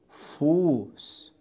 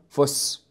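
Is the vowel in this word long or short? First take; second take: long; short. First: The vowel is held long. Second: The vowel is cut short. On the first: The speaker calls it right. "ينطق المقطع الصوتي بشكل طويل إذا أتى بعده حرف الأست" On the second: The speaker calls it wrong. "وليس"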